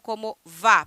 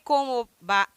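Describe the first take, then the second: First: The word 'va' begins with a V sound. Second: The word 'va' begins with a B sound. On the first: The speaker calls it wrong. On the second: The speaker calls it right.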